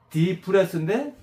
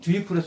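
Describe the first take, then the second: First: The first syllable is a plain 'dee' sound. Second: The first syllable is a rounded 'dwee' sound. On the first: This is the real pronunciation of the word. "정확한 발음은" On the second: This is a memory aid meaning pressing from behind. "우리가 어감은"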